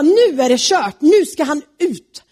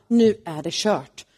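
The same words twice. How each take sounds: First: Louder and higher, decisive; the king has had enough; loud angry verdict; furious. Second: Slow, resigned, sinking; slow dejected sigh of doom; defeated. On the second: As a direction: realize it's all over. Haman realizes doom. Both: Acted.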